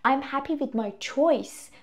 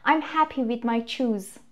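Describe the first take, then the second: First: CHOICE with an 'oy' vowel and soft s ending; slow, softer model sentence ending on CHOICE; corrected noun CHOICE. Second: Slow, earnest retold mistake; deadly serious learner's error. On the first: Shown as a demonstration. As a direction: say CHOICE carefully, rhyming with voice. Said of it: "choice نونه یا اسمه". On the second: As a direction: say CHOOSE slowly with a long 'oo' and z ending, in all seriousness. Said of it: "خیلی، خیلی جدی".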